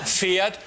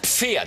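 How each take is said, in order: First: The word begins with a plain f sound. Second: The word begins with a pf sound. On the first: The speaker calls it wrong. "Es heißt nicht Pferd" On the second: The speaker calls it right. "Es heißt Pferd"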